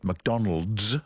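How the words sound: It ends with a z sound.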